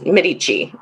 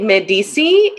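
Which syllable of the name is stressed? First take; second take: middle; last. First: The name is said the American way. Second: The name is said the French way.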